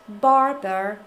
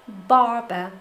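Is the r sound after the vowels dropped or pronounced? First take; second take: pronounced; dropped. First: The r sounds after the vowels are pronounced. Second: The r sounds after the vowels are dropped. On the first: "in American English" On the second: "in British English"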